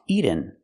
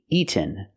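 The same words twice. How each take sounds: First: The middle t sounds like a quick d. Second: The middle t is fully released. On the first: The speaker calls it wrong. "We cannot make a fast D here" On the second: The speaker calls it right. "We have to make a real T"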